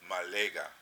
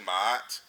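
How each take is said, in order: First: Consonant sounds are said between the vowels. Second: The two vowels are said with no consonant between. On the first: The speaker calls it right. "It's really Malega" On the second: The speaker calls it wrong. "it's not really Ma'at"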